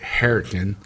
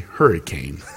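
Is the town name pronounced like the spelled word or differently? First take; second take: differently; like spelled. First: It is said in the older local way. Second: It is said like the spelled word. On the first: This is how older residents say it. "the old timers say Hurricane" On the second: This is how younger people say it. "like the way it's spelled"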